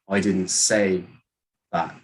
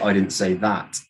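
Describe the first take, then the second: First: The word say carries the main stress. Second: The word that carries the main stress. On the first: It was implied but not said. "maybe you did something else to mean it. You just didn't say it" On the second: Something different was said. "you said something else"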